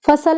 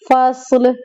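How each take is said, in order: First: फ़सल with an extra vowel between स and ल; wrong pronunciation. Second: फ़स्ल as one syllable, स and ल joined; correct pronunciation. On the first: Teacher showing students the mistake to avoid, extra vowel. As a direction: say फ़सल as fa-sal, two syllables. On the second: Teacher showing students the right way, one tight syllable. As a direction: say फ़स्ल tightly with no vowel before ल. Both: Shown as a demonstration. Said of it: "फ़सल नहीं पढ़ना".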